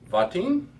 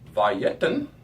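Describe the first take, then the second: First: The vowel after the first syllable is a schwa. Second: The vowel after the first syllable is full. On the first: The speaker calls it wrong. "When I first pronounced it, I thought there was a schwa there" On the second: The speaker calls it right. "There was not a schwa there"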